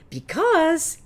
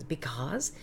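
First: "because" sung out high and loud; loud high take of "because"; belted because. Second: "because" breathed with no voice; whispered take of "because". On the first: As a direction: belt "because" high and full. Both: Shown as a demonstration. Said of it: "I must have said it fifty times".

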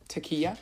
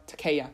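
First: Takeya said tuh-KEE-uh, rising as a question; unsure pronunciation. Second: Takeya said tuh-KAY-uh, falling; corrected pronunciation. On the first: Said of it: "Is that how?". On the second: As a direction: settle on Takeya with a KAY middle. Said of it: "Takeya sounds right". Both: Shown as a demonstration.

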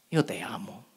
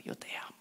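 First: Lower, softer tender words. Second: Whispered tenderly. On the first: Jesus telling the found sheep he loves it, soft and tender. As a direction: say it softly, lovingly. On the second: Jesus whispering his love to the found sheep, tender whisper. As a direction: whisper it, barely there. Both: Retold or imitated. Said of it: "Lo primero".

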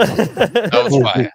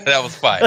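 First: Very slow, stretched That was fire; drawn-out praise. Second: Said in the usual way. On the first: Pretend. Praising a friend's punchline, slow drawn-out hype. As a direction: savour each word, slow and a bit louder.

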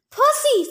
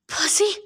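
First: High-pitched shout of a name; angry yell. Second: Higher, rising call of a name; pleading. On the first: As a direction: yell it sharply from a distance. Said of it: "Thalia yelled off to my left". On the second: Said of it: "Chiron pleaded". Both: A narrator's reading.

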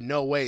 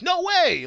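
First: Said in the usual way. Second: Much higher shouted "No way!"; mock heroic shout. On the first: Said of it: "instead of, like, 'No way!'". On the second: Shown as a demonstration. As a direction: yell it like Tommy would. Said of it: "instead of".

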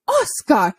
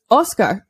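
First: Higher, retold call of the dog's name. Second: Said in the usual way. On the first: Rider shouting at the dog, raised call. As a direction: rider calling the dog sharply. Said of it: "the woman shouted". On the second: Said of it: "just his name".

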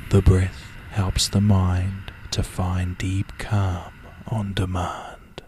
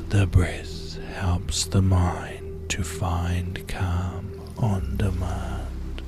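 First: Calming mantra. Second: Very slow, whispered mantra, drawn out. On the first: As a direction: say the calm mantra evenly, letting it fade. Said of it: "as I guide you with the following words". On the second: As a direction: breathe the mantra out slowly in a whisper. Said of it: "One more time now". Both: Shown as a demonstration.

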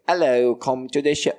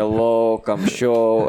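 First: Higher, badly faked native-English accent; attempted native-English accent. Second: Hammed-up Estonian-Russian accent, pushed out; bad Estonian-Russian accent. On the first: Imitating other flyerers to friend, failed English accent. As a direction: have a clumsy go at their English accent. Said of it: "can't do the fucking accent". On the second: Flyering among English speakers, mock Estonian-Russian accent. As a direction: play up a crude Estonian accent. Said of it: "all of a sudden you hear".

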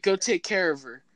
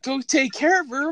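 First: Said in the usual way. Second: Higher, louder disbelieving repeat; incredulous echo. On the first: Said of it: "Mom's like". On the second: Retold or imitated. Son repeating mom's order, higher and louder disbelief. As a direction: throw it back in disbelief. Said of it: "I'm like".

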